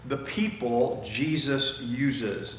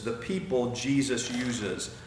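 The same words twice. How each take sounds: First: Slow, weighty "the people Jesus uses"; slow emphatic sermon point; stress on Jesus uses. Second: Said in the usual way. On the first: Shown as a demonstration. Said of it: "and that is".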